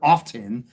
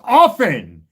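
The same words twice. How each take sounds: First: The T sound is clearly pronounced. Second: The T sound is left out. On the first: The speaker calls it wrong. "accenting the T" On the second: The speaker calls it right. "The T is silent"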